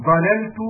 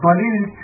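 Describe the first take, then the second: First: ضللت with an a after the first lam; fatha on lam. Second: ضللت with an i after the first lam; kasra on lam. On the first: Reader giving the other verb form, ضللت pronounced dalalt. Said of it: "بفتح العين". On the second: Reader showing the Tamim dialect form, ضللت pronounced dalilt. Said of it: "بكسر اللام". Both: Shown as a demonstration.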